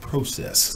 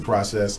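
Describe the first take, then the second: First: It is said with a British accent. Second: It is said with an American accent.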